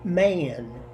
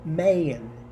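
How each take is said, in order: No difference in how they are said.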